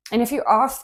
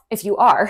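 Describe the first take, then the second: First: Accidental British accent; British-sounding "are" with no R. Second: Said in the usual way. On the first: Real, not acted. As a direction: slip into British, dropping the R in "are". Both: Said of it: "I don't know where that British accent came from".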